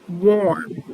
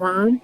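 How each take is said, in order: First: The vowel sounds like the one in 'storm'. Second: The vowel sounds like the one in 'firm'. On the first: "In the same way I pronounce storm, I would pronounce worm" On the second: "instead of saying worm"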